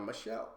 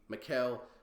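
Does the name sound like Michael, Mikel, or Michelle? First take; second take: Michelle; Mikel. First: It is said with a soft sh, as Michelle. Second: It is said with a hard k, as Mikel. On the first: "so I kind of did like a Michelle, but that that's not right" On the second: "Then I see Mikel"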